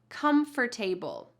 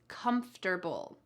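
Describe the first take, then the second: First: The ending is said fully, like 'table'. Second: The ending is reduced, with sounds dropped. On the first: The speaker calls it wrong. "The first one is" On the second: The speaker calls it right. "The correct answer is the second one"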